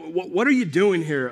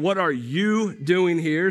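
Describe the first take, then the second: First: The question is said in a rebuking tone. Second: The question is said in a non-rebuking tone.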